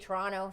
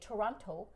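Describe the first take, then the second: First: The second T is dropped or softened. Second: The second T is clearly pronounced. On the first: "where we say Toronto" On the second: "she'd say Toronto"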